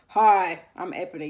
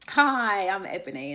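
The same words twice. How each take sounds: First: It is said coldly, without warmth. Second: It is said warmly, with a smile.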